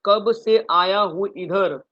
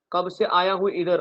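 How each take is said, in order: First: "कब से आया हूँ इधर" slow, with "कब" leaned on; slow emphatic recital. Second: Said in the usual way. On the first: Shown as a demonstration. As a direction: drill the mnemonic slowly and firmly. ("कब से आया हूँ इधर" धीमे, "कब" पर ज़ोर) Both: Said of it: "क्या बोला मैंने?".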